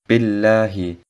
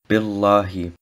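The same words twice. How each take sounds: First: The 'lah' part is pronounced soft and light. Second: The 'lah' part is pronounced heavy and thick. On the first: The speaker calls it right. "sollte sanft ausgesprochen werden" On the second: The speaker calls it wrong. "und nicht Billahi"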